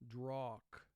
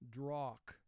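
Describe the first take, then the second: No difference in how they are said.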